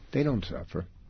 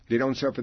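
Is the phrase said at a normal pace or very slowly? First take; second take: very slowly; normal. First: It is said very slowly and deliberately. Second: It is said at a normal, quick pace. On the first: The line sinks in and the audience imagines a scenario. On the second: The punchline follows at once.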